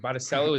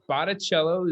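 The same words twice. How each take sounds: First: The name is pronounced the American way. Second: The name is pronounced the Italian way. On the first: This is the form the family adopted in America. "is sort of how my family adopted it as Americans" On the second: This is the original pronunciation from Italy. "is the correct enunciation for uh, all your Italian fans out there"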